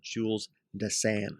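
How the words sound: The name is given a European, French-style pronunciation. "you're in Europe, you're going to call him"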